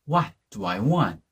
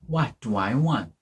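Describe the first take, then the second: The two takes are said the same way.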